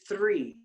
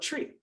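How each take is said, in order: First: The word starts with a 'th' sound. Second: The word starts with a 't' sound. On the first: Someone else corrects the speaker. "you still feel like you needed to tell me it's three" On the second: This is how the speaker naturally says it. "but I pronounce it tree"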